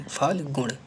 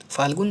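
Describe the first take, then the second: First: फाल्गुण ending in retroflex ṇ; correct pronunciation. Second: फाल्गुन ending in plain n; wrong pronunciation. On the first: Teacher giving the right word, फाल्गुण with retroflex ṇ. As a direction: curl the last sound of फाल्गुण. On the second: Teacher rejecting an error, फाल्गुन with dental n. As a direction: say "faal-gun" for फाल्गुन. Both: Shown as a demonstration. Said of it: "फाल्गुन नहीं".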